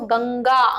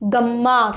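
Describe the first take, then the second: First: The middle nasal is an 'ng' sound. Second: The middle nasal is an 'm' sound. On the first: The speaker calls it right. "अंगा का उच्चारण हो रहा है" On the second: The speaker calls it wrong. "ना कि गम्मा करके"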